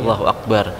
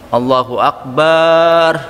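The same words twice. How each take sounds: First: The vowel in bar is short. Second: The vowel in bar is drawn out long. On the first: The speaker calls it right. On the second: The speaker calls it wrong.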